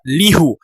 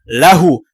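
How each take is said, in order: First: The first vowel is i. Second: The first vowel is a. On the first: The speaker calls it wrong. "tidak dibaca lihu" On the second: The speaker calls it right. "contoh lahu"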